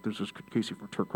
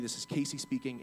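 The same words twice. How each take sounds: First: Garbled, broken-up headset mumble; bad phone connection. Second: Said in the usual way. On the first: Shown as a demonstration. Demonstrating a bad headset connection to listeners, garbled. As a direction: imitate a crackly line chopping up the words. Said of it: "sometimes I sound like this". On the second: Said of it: "he heard a bunch of mumbles".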